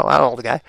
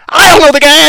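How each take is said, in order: First: Said in the usual way. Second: I punched higher and louder; stress on I. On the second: Shown as a demonstration.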